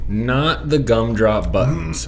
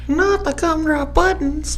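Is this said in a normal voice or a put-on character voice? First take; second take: normal; character voice. First: It is said in the speaker's normal voice. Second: It is said in a put-on character voice.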